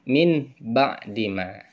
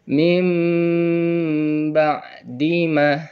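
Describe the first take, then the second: First: The first word ends in an n sound. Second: The first word ends in an m sound. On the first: The speaker calls it wrong. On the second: The speaker calls it right. "Dirubah suara nunnya itu menjadi suara mim"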